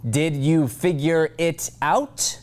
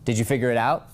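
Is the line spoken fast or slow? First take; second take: slow; fast. First: Each word is spoken slowly and distinctly. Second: The words are rushed together quickly. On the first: The speaker calls it right. "Slow, every word counts" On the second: The speaker calls it wrong.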